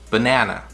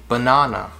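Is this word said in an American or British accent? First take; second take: American; British. First: It is said in an American accent. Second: It is said in a British accent. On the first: "Americans say banana" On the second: "British say banana"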